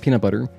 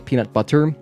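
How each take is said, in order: First: The t in butter is soft, like d. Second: The t in butter is a crisp t. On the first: "you say" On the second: "you don't really say"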